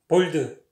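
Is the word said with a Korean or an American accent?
Korean. Choppy, with sharply cut consonants and a clear extra vowel. "볼드 딱딱 끊어요"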